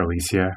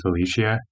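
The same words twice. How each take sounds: First: "Alicia" said with an S sound, a-LEE-see-a; S pronunciation. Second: "Alicia" said with a SH sound, a-LEE-shee-a; SH pronunciation. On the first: Podcaster offering another version of the name, says "Alicia" with S. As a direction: say "Alicia" with S in the middle. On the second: Podcaster unsure of a contestant's name, says "Alicia" with SH. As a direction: say "Alicia" with SH in the middle. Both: Real, not acted. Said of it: "however you say it".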